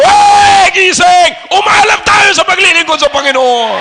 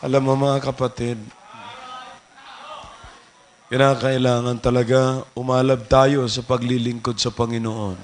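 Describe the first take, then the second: First: Very loud, high wake-up yell; rousing preacher's shout. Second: Very low, hushed monotone; imitating soft-spoken preachers. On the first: Shown as a demonstration. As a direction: bellow at sleepers to stir them. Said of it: "pero pag nandito ako". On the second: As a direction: murmur the exhortation like a subdued preacher. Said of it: "Sasabihin ng iba".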